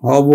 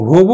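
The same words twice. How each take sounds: First: হব with open first vowel, hɔ-bo; correct open vowel. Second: হব said with closed o, হোবো; wrong o-kar pronunciation. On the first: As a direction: keep হব open, no o-kar on হ. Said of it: "উচ্চারণ হবে কিন্তু". (অবিকৃত অ দিয়ে হব) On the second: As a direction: round the first vowel of হব to ho. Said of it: "হব উচ্চারণ নয়". (ভুল ও-কার উচ্চারণে হোবো) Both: Shown as a demonstration.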